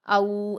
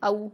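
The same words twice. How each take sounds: First: The vowel is drawn out long. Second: The vowel is soft and quick. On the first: The speaker calls it wrong. "ऐसे नहीं बोलेंगे" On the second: The speaker calls it right. "नर्म आवाज के साथ जल्दी पढ़ेंगे"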